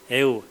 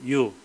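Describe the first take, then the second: First: It is said slowly as two clear vowels. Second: It is said quickly, merging into one sound.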